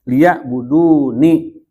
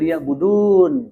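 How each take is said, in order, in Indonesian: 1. Kata ini berakhir pada vokal setelah n. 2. Kata ini berakhir pada konsonan n. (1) "Itu harus dibaca ni-nya" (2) "jangan begini"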